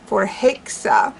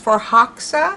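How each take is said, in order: First: The stressed vowel sounds like 'hey'. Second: The stressed vowel sounds like 'ha'. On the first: "instead of ha, a more of a hey sound" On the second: "which I have heard her pronounce as for Hoxa"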